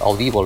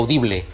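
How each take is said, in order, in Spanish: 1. La palabra se pronuncia con sonidos ingleses. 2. La palabra se pronuncia con sonidos españoles. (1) "si és en anglès és Audible" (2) "Si és en castellà seria Audible"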